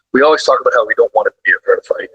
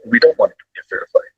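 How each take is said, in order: First: Said in the usual way. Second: "don't" lifted much higher and pushed fast; emphatic repeat. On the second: Real, not acted. Trainer repeating the point to the host, stressing "don't" higher and fast.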